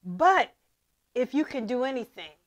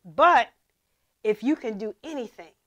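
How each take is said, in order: First: Said in the usual way. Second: "But" punched louder before "if you can do anything"; a louder "But" to open the line; stress on But. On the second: Shown as a demonstration. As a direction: hit "But" hard then read on. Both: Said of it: "hmm, let me read that again".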